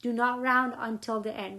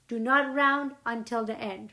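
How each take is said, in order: First: "round" pressed hardest, "not" lighter; stress on round. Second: "not" pressed hardest in "Do not round until the end"; stress on not. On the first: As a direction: repeat it, hitting "round". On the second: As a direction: lean on the word "not" as a warning. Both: Shown as a demonstration.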